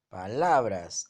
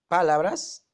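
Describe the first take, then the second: First: The stress is on the middle syllable. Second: The stress is on the first syllable. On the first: The speaker calls it right. "entonces es una grave" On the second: The speaker calls it wrong. "La mayor fuerza está en la pa"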